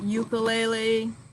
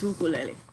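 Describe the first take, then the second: First: The u vowels have a 'yoo' sound. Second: The u vowels have a pure 'oo' sound. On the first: The speaker calls it wrong. "It's not ukulele" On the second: The speaker calls it right. "no, it's ukulele"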